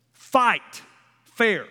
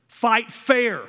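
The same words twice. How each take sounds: First: "Fight" and "fair" as two separate hits with a pause between; spaced emphasis. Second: Said in the usual way. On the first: Shown as a demonstration. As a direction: split "Fight" from "fair" and land each word.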